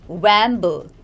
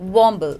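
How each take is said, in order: First: The first vowel is not an 'aw' sound. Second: The first vowel is an 'aw' sound. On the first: The speaker calls it wrong. "not wamble" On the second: The speaker calls it right. "It's womble, okay, It's got the aw sound in it"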